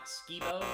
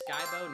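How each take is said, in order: First: The first syllable rhymes with 'ski'. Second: The first syllable rhymes with 'sky'. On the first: The speaker calls it wrong. "not Skibo" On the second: The speaker calls it right. "it's pronounced Skybo"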